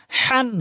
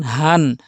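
First: হান with a strong rasped h from the middle of the throat; mid-throat big ha. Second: Light, open h in হান, no squeeze; small ha. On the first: Teacher shows the big ha, throaty drawn-out হান. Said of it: "বড় হাটি হলকের মাঝখান থেকে". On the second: Teacher contrasts the small ha, light-breathed হান. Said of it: "ছোট হা হচ্ছে হলকের শুরু থেকে". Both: Shown as a demonstration.

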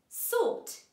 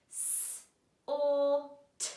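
First: Said in the usual way. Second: "S, or, t" said as three separate sounds; sounding out. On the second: Shown as a demonstration. Teacher segmenting a word for pupils, sound by sound.

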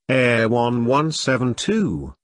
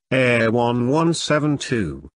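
The two takes are said the same way.

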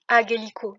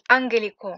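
First: "agelico" with no nasal before the hard g; wrong pronunciation. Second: "angelico" with a nasal before the hard g; corrected pronunciation. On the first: Teacher showing learners what was not said, "agelico" without n. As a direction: drop the n, "agelico". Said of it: "j'ai pas dit agelico". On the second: Teacher correcting for learners, "angelico" with audible ng. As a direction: sound the n clearly in "angelico". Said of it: "j'ai dit angelico". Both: Shown as a demonstration.

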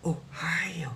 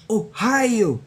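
First: Whispered Ohio. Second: Said in the usual way. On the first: Pretend. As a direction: breathe it out, no voice. Repeats Ohio, then whispers it.

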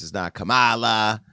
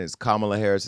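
First: "Kamala" said ka-MAH-luh, stress on the middle syllable, a touch slow; mock the mispronounced "Kamala" as ka-MAH-luh; wrong Kamala. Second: "Kamala" said COMMA-luh, stress on the first syllable; correct Kamala. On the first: Host mimicking how critics say "Kamala", ka-MAH-luh. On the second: Host correcting viewers on the name, saying "Kamala" as COMMA-luh. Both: Shown as a demonstration.

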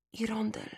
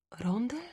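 First: Very soft, effortful murmur, falling; ailing mother forcing out words faintly; faint and hushed, with effort; strained whisper. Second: Very soft questioning echo, rising; hushed, hesitant boy's question; equally quiet voice. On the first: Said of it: "szepnęła z wysiłkiem". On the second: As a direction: repeat it softly as a question. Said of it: "rzekłem równie cichym głosem". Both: A narrator's reading.

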